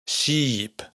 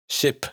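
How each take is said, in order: First: "Sheep" with a drawn-out "ee"; long closed i. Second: "ship" with a quick, lax "ih"; short open i. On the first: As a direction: hold the tight vowel in "Sheep". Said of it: "una i larga que siempre es cerrada". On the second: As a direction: clip the vowel of "ship" short. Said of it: "una i corta que siempre es abierta". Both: Shown as a demonstration.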